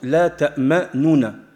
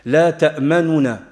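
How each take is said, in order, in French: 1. La voyelle après le premier n est prononcée entièrement. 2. La voyelle après le premier n n'est prononcée que partiellement. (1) "qui se lit dans certaines variantes" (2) "prononcer le premier noun avec la dhamma de manière vraiment partielle"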